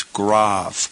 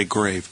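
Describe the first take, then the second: First: "grave" said grahv, with an open ah; corrected pronunciation. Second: "grave" with a long A, as in gravestone; mispronunciation to avoid. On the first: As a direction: rhyme "grave" with suave. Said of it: "It's grave". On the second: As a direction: say "grave" to rhyme with cave. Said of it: "you don't want to say grave". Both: Shown as a demonstration.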